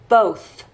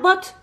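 First: The word ends with a breathy th sound. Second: The word ends with a hard t sound. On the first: The speaker calls it right. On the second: The speaker calls it wrong.

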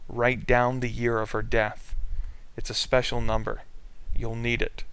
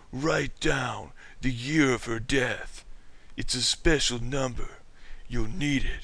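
First: It is said in a plain reading voice. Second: It is said in a put-on character voice.

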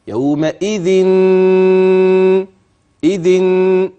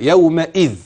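First: The word ends with a held nasal n sound. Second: The word ends plainly without any nasal n. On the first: The nasal ending is shown only to explain the merging. The speaker calls it wrong. "ده الوقف ده كده صح؟ لا" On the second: This is how to pause on the word. The speaker calls it right. "أنت لو وقفت تقف كده"

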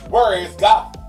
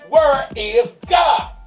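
First: It is said sternly at moderate loudness. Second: It is said with a much louder voice.

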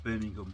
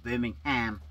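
First: The name is said in a British accent. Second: The name is said in an American accent. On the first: "But we call it Birmingham" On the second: "as our American friends call it"

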